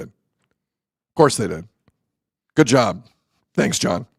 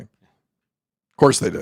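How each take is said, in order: First: Slow, drawn-out sarcasm; sarcastic. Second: Sarcastic. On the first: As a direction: drag it out in disbelief. Repeated sarcastic aside. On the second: Sarcastic aside about benching. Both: Real, not acted.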